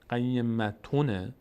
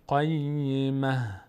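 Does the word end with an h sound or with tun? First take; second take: tun; h. First: The word ends with a t sound and nunation. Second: The word ends with a silent h sound. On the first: The reading continues past the verse end. "در وقتی که ما بخوایم ادامه بدیم آیه رو" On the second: The reading stops at the verse end. "وقتی بخوایم بستیم آخرش رو ساکن میکنیم"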